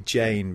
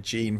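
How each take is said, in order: First: The vowel sounds like the one in 'pain'. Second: The vowel sounds like the one in 'bean'. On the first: The speaker calls it right. "I think it's supposed to be Jane" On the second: The speaker calls it wrong. "I've been calling her Jean for ages"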